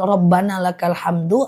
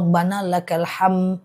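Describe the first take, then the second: First: The last word ends with a released final vowel. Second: The last word is cut off without a vowel. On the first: The word runs on without a pause. "Kalau hamdu berarti dia lepaskan" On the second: The reciter pauses and stops on the word. "Ham itu berarti dia matikan di ujung, dia wakafkan"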